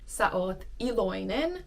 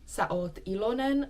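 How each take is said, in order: First: The last word keeps the i sound: i-lo-i-nen. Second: The last word drops the i sound: i-lo-nen. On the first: "you should pronounce it iloinen" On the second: "drops the I in the middle, so it sounds more like ilonen"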